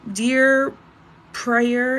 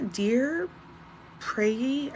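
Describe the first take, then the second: First: Loud, bold opening on "Dear" before a name; confident start. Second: Softer, hesitant "dear Prayy" with a rising end; unsure name attempt. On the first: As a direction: say "Dear" loudly, as if the name is sure to follow. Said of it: "cannot pronounce your name". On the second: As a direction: try the name "Prayy" tentatively, not knowing how it goes. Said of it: "I'm sorry, I cannot pronounce your name". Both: Real, not acted.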